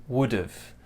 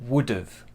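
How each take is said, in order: No difference in how they are said.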